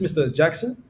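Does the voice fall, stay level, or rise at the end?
rise. The pitch rises at the end. The caller might be someone the listener knows. The speaker calls it right. "if you come with an upward inflection"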